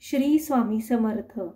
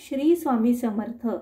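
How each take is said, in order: The two takes are said the same way.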